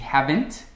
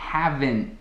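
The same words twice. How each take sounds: First: The final T is clearly released. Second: The final T is held back, not released. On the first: "em vez de haven't" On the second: "eu estou a ponto de dizer o T, mas não o digo"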